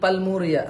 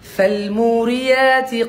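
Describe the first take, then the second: First: The word begins with a p sound. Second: The word begins with an f sound. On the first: The speaker calls it wrong. "অনেকে কিন্তু পা বলে" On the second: The speaker calls it right. "ফ ফ ফ"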